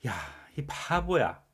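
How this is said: It is said in an irritated, angry tone. The speaker is truly annoyed and angry. "정말 짜증나고 화가 나서 말하는 거죠"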